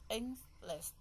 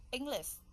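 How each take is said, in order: First: "English" in two separate beats, Eng, lish; split into syllables. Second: Said in the usual way. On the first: Shown as a demonstration. Teacher counting the syllables in English, "English" split in two. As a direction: break "English" apart syllable by syllable. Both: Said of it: "We have English".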